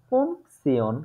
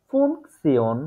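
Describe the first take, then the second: The two takes are said the same way.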